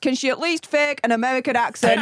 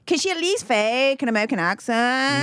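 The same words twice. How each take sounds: First: It is said in her own British accent. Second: It is said in a put-on American Valley Girl accent.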